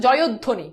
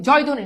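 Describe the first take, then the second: First: জয়ধ্বনি as "jo-yod-dhoni"; careful model of জয়ধ্বনি with "yod" sounded fully; correct pronunciation. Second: জয়ধ্বনি as "joy-dhoni", no "o" after y; জয়ধ্বনি the common way, with a single d sound; wrong pronunciation. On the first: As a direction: add the "o" and double the d in জয়ধ্বনি. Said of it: "এটা হচ্ছে জয়ধ্বনি". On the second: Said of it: "জয়ধ্বনি না". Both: Shown as a demonstration.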